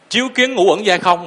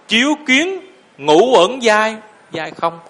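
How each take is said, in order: First: It runs on with no pause after 'chiếu kiến'. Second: There is a pause after 'chiếu kiến'. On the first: The phrase's meaning is unclear to listeners. The speaker calls it wrong. "mình đọc như vậy phải không?" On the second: Illuminating, one sees the five aggregates are empty. The speaker calls it right. "Chiếu kiến phải ngắt nè"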